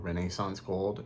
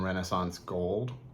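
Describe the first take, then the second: First: Renaissance is said with a British pronunciation. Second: Renaissance is said with an American pronunciation.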